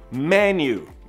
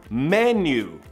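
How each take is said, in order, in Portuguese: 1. A vogal final soa como 'you'. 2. A vogal final soa como 'you'.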